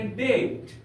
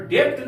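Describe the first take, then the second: First: डेट with silent b; drawn-out डेट, no b or p; correct pronunciation. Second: डेप्ट with a lip sound before the t; short डेप्ट, consonant cluster at the end; wrong pronunciation. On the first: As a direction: say डेट with a long vowel straight into t. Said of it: "हम लोग पढ़ेंगे डेट". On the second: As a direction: say डेप्ट as "debt" with the b heard. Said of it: "डेप्ट नहीं पढ़ेंगे". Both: Shown as a demonstration.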